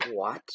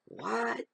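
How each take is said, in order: First: Retold disbelief at usual pitch; stunned question. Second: Very high, rising "What?"; incredulous. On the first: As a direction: ask it in understated shock. Stunned reaction, first take. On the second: Retold or imitated. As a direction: squeak it upward in mock disbelief. Stunned reaction, escalated repeat.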